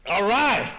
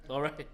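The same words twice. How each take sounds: First: Loud call of all right. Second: Said in the usual way. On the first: Real, not acted. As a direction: belt all right out to the room. Repeats it, second time loud.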